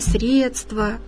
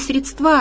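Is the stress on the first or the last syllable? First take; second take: first; last. First: The stress falls on the first syllable. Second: The stress falls on the last syllable. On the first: The speaker calls it right. "а «средства»" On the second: The speaker calls it wrong. "говорить правильно не «средства»"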